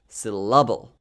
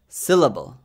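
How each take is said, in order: First: The stress is on the second syllable. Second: The stress is on the first syllable. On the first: "and not the second, which would make it sound like syllable" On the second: "I stress the first syllable, si"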